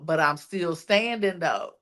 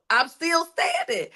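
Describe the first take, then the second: First: Said in the usual way. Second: Much higher-pitched, insistent repeat; emphatic declaration. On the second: Acted. Telling yourself in the mirror you survived, emphatic declaration. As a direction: drive home STANDING on a high pitch.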